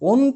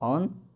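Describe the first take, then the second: First: The first vowel is a closed 'oh' sound. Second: The first vowel is an open 'aw' sound. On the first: The speaker calls it wrong. "অন্ত বলতে পারবো না" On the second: The speaker calls it right. "উচ্চারণ কিন্তু করতে হবে অন্ত"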